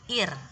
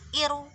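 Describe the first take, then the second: First: The word ends on a bare r sound. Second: The r is followed by an added vowel. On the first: The speaker calls it right. "tapi ir" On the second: The speaker calls it wrong. "bacanya bukan iru"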